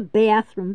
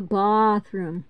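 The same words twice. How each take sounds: First: Said in the usual way. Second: Bathroom said as "bah-throom"; mock the grand AH in bathroom; broad-A bathroom. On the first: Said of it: "We have a bathroom". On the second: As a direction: bathroom with a long open AH. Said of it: "we don't live in a palace".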